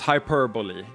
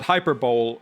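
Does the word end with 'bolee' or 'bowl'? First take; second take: bolee; bowl. First: The word ends in four syllables, 'bo-lee'. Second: The word ends like 'bowl', rhyming with Super Bowl. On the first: The speaker calls it right. "It's hyperbole. You're right" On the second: The speaker calls it wrong. "works better for the Super Bowl"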